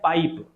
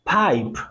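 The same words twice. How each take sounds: First: The p is said without a breath burst. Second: The p has a strong burst of breath. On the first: "generally हम बोलते हैं पाइप" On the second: "वो उसे plosive करते हैं, बस्ट करते हैं अपनी आवाज को"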